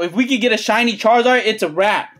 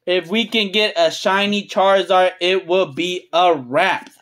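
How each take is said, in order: First: Said in the usual way. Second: Low, deliberate restatement of "it will be a wrap"; measured emphasis. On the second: Real, not acted. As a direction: spell it out word by word, solemnly. Repeats the wish slowly, spelling out.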